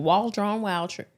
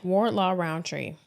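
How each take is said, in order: First: "Waldron Roundtree" said slowly, testing each syllable; slowly sounding out the name. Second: "Wardlaw Roundtree" drawn out slowly and softer; slow careful repeat of "Wardlaw Roundtree"; slowly repeating the name. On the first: Cohost slowly repeats the tricky surname, sounding it out. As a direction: spell out "Waldron Roundtree" carefully at slow pace. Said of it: "That's a mouthful". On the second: Cohost carefully repeats the corrected surname, slow and soft. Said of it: "Say that ten times fast". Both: Shown as a demonstration.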